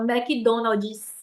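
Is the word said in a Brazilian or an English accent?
Brazilian. It is said with a Brazilian Portuguese accent. "A gente fala"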